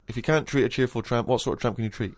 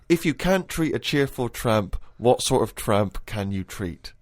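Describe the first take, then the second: First: It is said quickly, at a rapid pace. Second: It is said at a normal reading pace.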